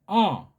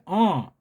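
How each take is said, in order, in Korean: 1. 이 모음은 콧소리로 나요. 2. 이 모음은 콧소리로 나요.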